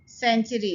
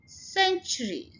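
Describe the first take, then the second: First: The word is said loosely without clear first-syllable stress. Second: The first syllable carries strong, clear stress. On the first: The speaker calls it wrong. "जैसे हम ढीला से कह देते ऐसे नहीं" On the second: The speaker calls it right. "Stress हम first syllable के ऊपर डालेंगे"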